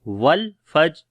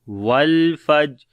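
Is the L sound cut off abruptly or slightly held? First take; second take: abrupt; held. First: The L sound is cut off abruptly. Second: The L sound is held slightly before continuing. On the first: The speaker calls it wrong. "ये गलत है" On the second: The speaker calls it right. "हल्की सी आवाज जारी होती है तवस्सुत के ऊपर"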